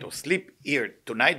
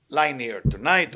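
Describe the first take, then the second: First: Tonight drawn out with a rise; stress on tonight. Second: Tonight drawn out and falling; stress on tonight. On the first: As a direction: stretch tonight slowly upward. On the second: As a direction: lean slowly on tonight. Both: Shown as a demonstration. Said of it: "emphasize the word tonight".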